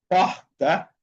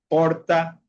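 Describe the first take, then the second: First: The r sounds guttural, like a Spanish j. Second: The r sounds like a light, soft r. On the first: This is how some Brazilian regions say it. "pronuncian como la J en español" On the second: This is how other Brazilian regions say it. "la pronuncian como la R normal"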